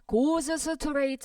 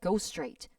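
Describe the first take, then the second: First: The s of goes is pronounced fully before straight. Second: The s of goes is dropped before straight. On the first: The speaker calls it wrong. "goes straight 하시면 안 돼요" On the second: The speaker calls it right. "앞에 자음 탈락시켜버리면 그냥 go straight 하면 돼요"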